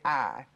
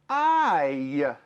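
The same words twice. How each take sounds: First: The vowel is a plain 'ah' without glide. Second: The vowel glides into a 'y' at the end. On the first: The speaker calls it wrong. "we don't say I" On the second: The speaker calls it right. "We say I. You hear the little y"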